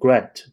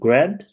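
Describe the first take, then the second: First: The pitch stays level or falls at the end. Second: The pitch rises at the end like a question. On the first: "如果就正常播报的话，我们就会说Grant，就是不会往上翘起来" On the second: "而且他这个还自带语调的"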